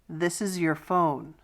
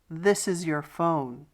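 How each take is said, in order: Both takes have the same delivery.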